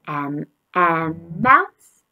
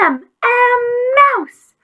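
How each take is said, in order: First: It is said in a normal voice. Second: It is shouted loudly.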